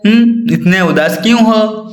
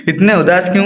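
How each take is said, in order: First: Concerned asking. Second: Said in the usual way. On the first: Shown as a demonstration. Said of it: "अगर कोई दुख में होगा तो क्या बोलोगे आप?". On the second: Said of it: "ऐसे बोलोगे।".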